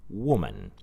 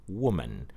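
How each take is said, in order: The two takes are said the same way.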